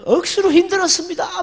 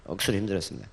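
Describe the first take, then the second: First: High, strained Gyeongsang whine of 억수로 힘들었습니다; Gyeongsang dialect. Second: 억수로 힘들었습니다 dropped low, soft and fast; quick quiet Gyeongsang aside; muttered Gyeongsang dialect. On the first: Solomon repenting in heaven, high Gyeongsang dialect moan. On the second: Preacher repeats Solomon's line, soft fast Gyeongsang mutter. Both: Pretend. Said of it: "뭐 이런 이야기 할 것 같아요".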